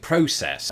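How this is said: The word is said with a British pronunciation. "when I lived in the United Kingdom, I would have been far more likely to ... pronounce it process"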